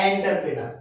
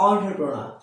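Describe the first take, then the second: First: "এন্টারপ্রেনার" said as "en-tar-pre-nar"; common mispronunciation. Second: "এন্টারপ্রেনার" said as "on-tre-pro-na"; correct pronunciation. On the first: Teacher showing what we usually say, "এন্টারপ্রেনার" as en-tar-pre-nar. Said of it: "কি বলি?". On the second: Teacher giving learners the real form, "এন্টারপ্রেনার" as on-tre-pro-na. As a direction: say "এন্টারপ্রেনার" starting "on-tre", no final r. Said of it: "আসলে এর উচ্চারণ হবে". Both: Shown as a demonstration.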